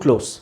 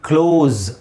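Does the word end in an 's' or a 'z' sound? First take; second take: s; z. First: The word ends with a hissing 's' sound. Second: The word ends with a buzzing 'z' sound. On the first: Something is near. "ಹತ್ತಿರ, it's ಟು ಕ್ಲೋಸ್" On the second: Something is being shut. "ಮುಚ್ಚುವುದಕ್ಕೆ ಕ್ಲೋಸ್ ಝೆಡ್ pronounce ಆಗಬೇಕಲ್ಲಿ"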